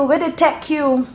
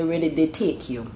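First: Bajan "Where they take you?", take as tech, higher; Bajan phrasing. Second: Said in the usual way. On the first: Shown as a demonstration. Explaining Bajan shortened words, Bajan accent. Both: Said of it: "take is basically to say".

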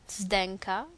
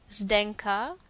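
No difference in how they are said.

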